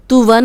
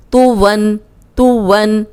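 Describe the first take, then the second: First: तुवन said with a thin, light t; the wrong reading of तुवन; तुवन with a light two-dot t. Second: तुवन with a heavy, full t; तुवन with a heavy toay. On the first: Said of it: "तुवन नहीं पढ़ना". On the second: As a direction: read तुवन thick and round. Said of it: "इसको मोटा पढ़ना है।". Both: Shown as a demonstration.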